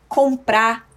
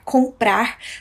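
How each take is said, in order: First: The final r sound is dropped. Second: The final r sound is pronounced.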